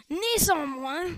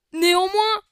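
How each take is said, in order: First: Said in the usual way. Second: A loud, higher mock shout; a boy playing Voldemort shouts at Harry Potter; hammed-up villain shout. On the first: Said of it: "je vais faire la voix normale". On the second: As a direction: bellow the word like a cartoon villain. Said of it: "Donc quand c'est Voldemort, je vais faire cette voix".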